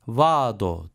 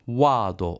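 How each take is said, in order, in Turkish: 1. V sesiyle başlıyor, dişler alt dudağa değiyor. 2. W sesiyle başlıyor, dudaklar yuvarlak. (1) "vado değil" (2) "olarak söylenir"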